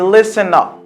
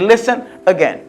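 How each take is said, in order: First: The final n runs into the next vowel. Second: The two words are said separately. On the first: The speaker calls it right. "Me dit listen up" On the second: The speaker calls it wrong. "M'pas dire listen again"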